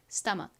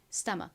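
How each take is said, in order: No difference in how they are said.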